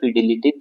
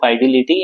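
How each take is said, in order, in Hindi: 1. पहला स्वर छोटे 'i' जैसा सुनाई देता है। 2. पहला स्वर 'eye' जैसा सुनाई देता है। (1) "वायरलेस फिडिलिटी भी बोलते हैं कई लोग" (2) "फाइडिलिटी या फिडिलिटी जैसा आपको प्रोनाउंसिएशन करना"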